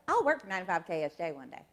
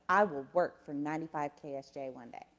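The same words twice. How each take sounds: First: Quick Alabama twang, words run together; Southern accent. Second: "I will work" said in full, measured and low; careful non-regional diction. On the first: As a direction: let the Southern accent slip out, quicker and softer. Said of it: "when the accent comes out". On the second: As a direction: softly enunciate "ninety-five" without a Southern accent. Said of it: "But in my head, it was like". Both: Retold or imitated.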